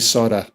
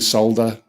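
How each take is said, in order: First: One letter sound is left out of the word. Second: Every letter sound in the word is pronounced. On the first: The speaker calls it wrong. "they say solder. ... They have they take letters out of words" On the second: The speaker calls it right. "Instead of saying solder"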